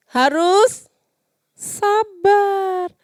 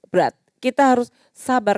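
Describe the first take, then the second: First: Harus sabar stretched slow and high; drawn-out emphasis. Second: Said in the usual way. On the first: Shown as a demonstration. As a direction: lean hard on harus and sabar. (harus sabar diucapkan panjang dan tinggi)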